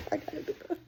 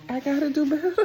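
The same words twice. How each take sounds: First: High, soft, trailing repeat; spent self-reproach. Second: Higher, louder, laughing through the words; laughing self-reproach. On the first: Repeating it to herself after a laughing fit, softly. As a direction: say it small, out of steam after laughing. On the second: Laughing at herself to viewers, voiced and giggly. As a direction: scold yourself through laughter. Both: Real, not acted.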